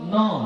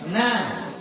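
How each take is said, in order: First: The vowel is rounded, like 'oh'. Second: The vowel is open, like 'ah'. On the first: The speaker calls it wrong. "jangan no, bukan no" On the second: The speaker calls it right. "tapi apa? Nah"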